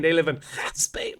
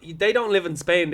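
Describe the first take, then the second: First: Spain said with a throaty Spanish h sound, hspain; mock Spanish Spain; Spanish-style Spain. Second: Said in the usual way. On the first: Shown as a demonstration.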